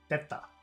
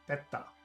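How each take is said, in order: First: The first vowel is kept short. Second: The same.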